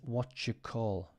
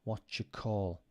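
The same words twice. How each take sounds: First: "Do you" is blended into one "jew" sound. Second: The same.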